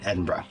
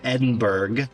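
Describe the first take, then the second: First: It is said with the local pronunciation. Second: It is said with an American accent. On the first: The speaker calls it right. "I know how to say it correctly" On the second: The speaker calls it wrong. "I have to read this with the American accent"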